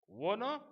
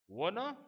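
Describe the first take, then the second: No difference in how they are said.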